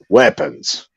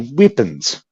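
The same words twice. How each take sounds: First: It is said in a hard-hitting Australian accent. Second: It is said in a softer, New Zealand-like accent. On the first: It is how the locals really say it. The speaker calls it right. "whereas Australians say weapons" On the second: It is an outsider's imitation of the accent. The speaker calls it wrong. "They say weapons"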